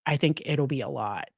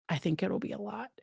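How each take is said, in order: First: Said in the usual way. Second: Softer, quicker muttered repeat; quiet aside. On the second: Shown as a demonstration. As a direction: drop it under your breath, quickly. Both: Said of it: "that's me trying to find nice words".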